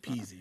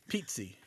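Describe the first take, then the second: First: The middle has a plain z with no t. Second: The middle has a t sound before the z. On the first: This is how the name's owner says it. "I say peasy" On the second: This is how another family member says the name. "My dad pronounced it like there's a T in there"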